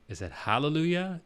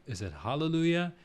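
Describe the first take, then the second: First: Hallelujah with bright a like cat. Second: Hallelujah with darker open a. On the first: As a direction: say hallelujah with flat open a, hæ-le-lu-ya. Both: Shown as a demonstration. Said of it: "how do you say hallelujah".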